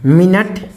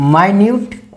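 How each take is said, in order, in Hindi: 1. पहला अक्षर 'min' जैसा सुनाई देता है। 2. पहला अक्षर 'my' जैसा सुनाई देता है। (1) "इसका उच्चारण ठीक है तीन होता है" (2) "अगर आप माइन्यूट बोले तो इसका अर्थ होगा अति सूक्ष्म"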